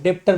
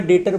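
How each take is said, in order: First: डेप्टर with the b sounded, "dep-tar"; wrong pronunciation. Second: डेटर said with silent b, as "det-tar"; right pronunciation. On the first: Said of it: "डेप्टर नहीं बोलते हैं". (डेप्टर, बी बोलकर) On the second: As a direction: say डेटर without any b sound. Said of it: "pronounce करते समय डेटर बोलते हैं". (डेटर, बी silent) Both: Shown as a demonstration.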